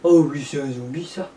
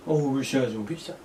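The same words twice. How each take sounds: First: Zombie voice. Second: Soft zombie voice. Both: Pretend. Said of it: "Tu es un zombie, toi?".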